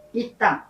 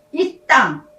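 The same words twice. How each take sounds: First: Said in the usual way. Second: "이 땅" stressed and a bit louder; emphatic reading. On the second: Shown as a demonstration. Pastor reads "이 땅" to the congregation, emphatic. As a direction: hit "이 땅" like scripture. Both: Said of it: "다섯 번이나 나옵니다".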